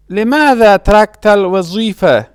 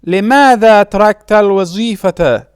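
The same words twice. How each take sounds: First: الوظيفة said "al-wa-zee-fa"; pausal ending. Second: الوظيفة said "al-wa-zee-fa-ta"; full case ending. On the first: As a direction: leave the final t of الوظيفة silent. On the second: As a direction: sound the final "-ta" of الوظيفة. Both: Shown as a demonstration.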